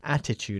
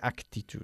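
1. No va ningún sonido k antes de la t. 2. Un sonido k va antes de la t. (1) "Attitude en inglés" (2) "No se dice actitude"

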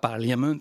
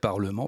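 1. Le milieu se prononce 'lia', comme il est écrit. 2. Le milieu se prononce 'le', comme le français 'parlement'. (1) "longtemps j'ai prononcé ça Parliament avant de savoir que non" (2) "ça se prononçait Parlement"

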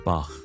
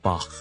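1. 这个名字读成德式发音。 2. 这个名字读成德式发音。

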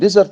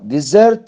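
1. النبرة على المقطع الأول. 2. النبرة على المقطع الأخير. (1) "فإذا كانت اسما نعمل استرس على المقطع الأول" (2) "إذا كانت فعلا نعمل استرس على المقطع الأخير"

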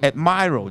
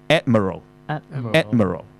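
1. 重音在第二个音节。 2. 重音在第一个音节。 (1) "但係你讀admiral 就肯定錯啦，又係個重音嘅問題啦" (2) "佢係讀admiral"

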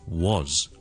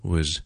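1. 这个音读得很重，元音完整清晰。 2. 这个音读得很轻，元音弱化。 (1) "读回一个很完整很强的一个音" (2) "我们就这样轻轻地读呢"

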